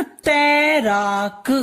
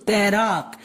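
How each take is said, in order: First: तैराक stretched slowly into तै-रा-क; syllable-by-syllable. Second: Said in the usual way. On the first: Shown as a demonstration. Teacher breaking down an example word, syllable by syllable. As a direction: sound out तैराक part by part. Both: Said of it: "हम लोग बोलते हैं ना".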